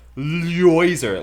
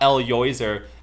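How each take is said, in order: First: The opening L merges quickly into the next sound. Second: The opening L is a separate syllable. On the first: The speaker calls it right. "You just gotta say it fast" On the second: The speaker calls it wrong. "you pronounce it wrong. It's not El Yoiser"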